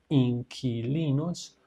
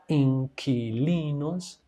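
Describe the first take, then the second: Both takes have the same delivery.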